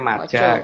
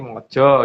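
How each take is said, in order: First: The vowels are pronounced as an open a. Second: The vowels are pronounced as a rounded o. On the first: This is the Sanskrit form. "Kalau dalam Sanskerta mungkin ngomongnya maja" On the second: This is the Kawi form. "kalau dalam bahasa Kawi ngomongnya mojo gitu kan. Karena huruf A itu kan dibaca O"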